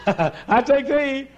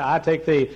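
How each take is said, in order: First: High, drawn-out mock vow; hammed-up bride, slow and high; imitated overwrought bride. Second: Said in the usual way. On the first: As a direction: stretch it out in a silly high squeal. Imitates another bride's exaggerated vow. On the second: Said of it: "and I said".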